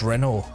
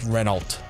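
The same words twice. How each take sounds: First: The final consonant sounds are left silent. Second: The final L and T sounds are pronounced. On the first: "technically in French you wouldn't pronounce those last few words or few characters" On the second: "when reading English would pronounce the L T at the end"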